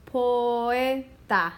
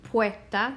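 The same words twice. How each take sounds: First: Poeta slow, po-e-ta, o and e apart; correct split poeta. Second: Poeta with oe run together as one syllable; wrong merged poeta. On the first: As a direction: stretch poeta into three clear syllables. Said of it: "It's not poeta". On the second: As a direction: glide poeta into two syllables, poe-ta. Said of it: "what it would sound like if they were all together". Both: Shown as a demonstration.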